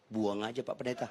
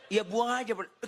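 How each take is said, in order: First: Offhand, blunt brush-off; blunt dismissal. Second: High, insistent mock reply; high-pitched insistence. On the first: Retold or imitated. Phone seller to the pastor, bluntly dismissive. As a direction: toss it out bluntly, in a low-key way. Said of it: "Kenapa sih lu kasar banget gitu". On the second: Phone seller insisting to the pastor, high and insistent. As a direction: repeat it in a raised voice, playfully exasperated. Seller repeats himself after the protest.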